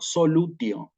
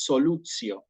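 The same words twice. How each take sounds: First: The consonant before -io is a plain t. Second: The consonant before -io sounds like ts. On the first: This is the classical Latin pronunciation. "La estoy pronunciando en latín clásico, solutio, la T inalterable" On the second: This is the ecclesiastical Latin pronunciation. "en latín eclesiástico, esta palabra la voy a pronunciar tal cual como la acabo de escribir aquí"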